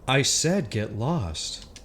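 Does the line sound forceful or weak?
weak. It is said weakly, without authority.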